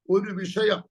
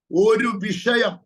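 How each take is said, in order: First: Said in the usual way. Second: ഒരു വിഷയം slowed down, വിഷയം pressed louder; emphatic repeat. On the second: Shown as a demonstration. Prophet stressing the matter to the congregation, slow and weighty. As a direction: lean hard on വിഷയം, slowly.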